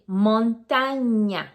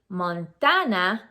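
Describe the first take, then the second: First: The middle consonant is an NY sound. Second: The middle consonant is a plain N sound. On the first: The speaker calls it right. "That's the correct pronunciation" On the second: The speaker calls it wrong. "we are not supposed to say Montana"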